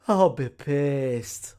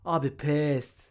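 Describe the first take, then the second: First: Drawn out, louder I'll be pissed; slow emphatic. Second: Said in the usual way. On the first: Real, not acted. Repeating his anger about the scam slowly. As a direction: stretch every word. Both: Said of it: "repeats for emphasis".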